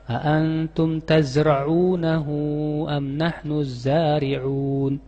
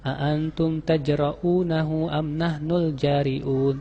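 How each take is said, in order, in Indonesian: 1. Konsonan kuncinya dibaca sebagai bunyi z. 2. Konsonan kuncinya dibaca sebagai bunyi j. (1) "Padahal harusnya apa? ... Pakai zi, zai dan ain" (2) "dibacanya pakai jim"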